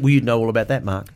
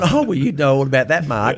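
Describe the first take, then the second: First: It is said in an aggressive tone. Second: It is said in a light, friendly tone.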